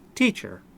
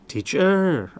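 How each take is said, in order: First: The stress is on the first syllable. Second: The stress is on the second syllable. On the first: The speaker calls it right. "The accent in teacher is on the first syllable" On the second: The speaker calls it wrong. "the accent on the second syllable. That is not correct"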